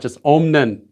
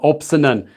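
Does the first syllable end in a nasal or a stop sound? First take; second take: nasal; stop. First: The first syllable ends in a nasal sound. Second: The first syllable ends in a stop sound. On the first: The speaker calls it right. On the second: The speaker calls it wrong. "how do I say ... It's not like that"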